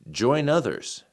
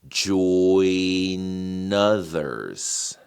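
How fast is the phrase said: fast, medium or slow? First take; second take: fast; slow. First: It is said at a fast speed. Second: It is said at a slow speed.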